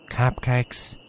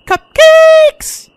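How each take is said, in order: First: Reluctant, quiet mumble of surrender; Applejack. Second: Very high, loud excited shout; piercingly high, gleeful cry; exuberant squeal. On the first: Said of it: "Applejack sighed deeply and took the treat". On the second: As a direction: belt it out at the top of a squeaky voice. Song's big excited final cry. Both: Acted.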